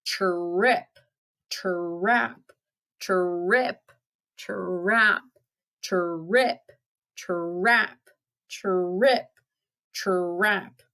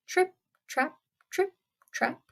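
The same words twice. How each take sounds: First: Drawn-out, rolling tr-rip, tr-rap; heavy goat footsteps. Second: High, light trip-trap; little clipping high-pitched steps; tiny goat footsteps. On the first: Big goat crossing the bridge, slow heavy trip-trap. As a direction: stretch each step, swinging up at the end. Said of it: "up came the big billy goat Gruff". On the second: Youngest goat crossing the bridge, high and light. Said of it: "came the youngest billy goat Gruff". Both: Acted.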